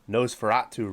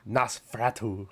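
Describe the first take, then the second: First: It is said in a plain American way. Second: It is said imitating an actor's film pronunciation.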